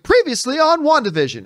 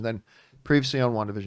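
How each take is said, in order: First: It is said with high enthusiasm. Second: It is said with little enthusiasm.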